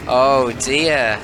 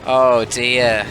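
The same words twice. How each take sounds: The two takes are said the same way.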